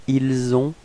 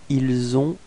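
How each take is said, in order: Both takes have the same delivery.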